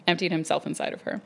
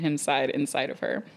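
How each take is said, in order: First: Said in the usual way. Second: Stumbling misread of "him side inside"; misread line. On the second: Real, not acted. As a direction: trip over "him side inside" then stall.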